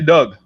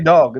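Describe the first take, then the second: First: The vowel is a short 'uh' sound. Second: The vowel is an open 'aw' sound. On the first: "they say Doug" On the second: "they can't say dog"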